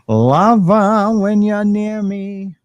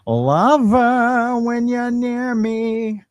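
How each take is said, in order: First: It is said in the speaker's ordinary voice. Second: It is said in a put-on character voice.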